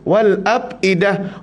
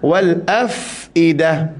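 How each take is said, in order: First: The middle consonant is a p sound. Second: The middle consonant is an f sound. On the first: The speaker calls it wrong. "Ada orang baca wal apidah" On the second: The speaker calls it right. "pastikan af tu f tu bunyi fa"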